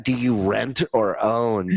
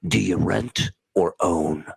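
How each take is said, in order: First: Scornful repeat. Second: Smug Alec Baldwin line. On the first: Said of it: "What a fucking douchebag". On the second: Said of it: "And then he goes". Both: Retold or imitated.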